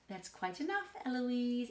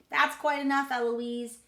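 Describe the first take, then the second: First: Restrained tutor scolding; tutor's reprimand. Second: Loud, higher parroting; child mimicking tutor. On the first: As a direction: keep the scolding contained. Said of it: "And he says". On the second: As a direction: throw the tutor's scolding back loudly. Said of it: "And I say". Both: A narrator's reading.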